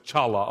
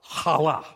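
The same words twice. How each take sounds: First: The first sound is plain, not from the throat. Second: The first sound is a rough sound from the throat. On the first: "I know it says chala up there"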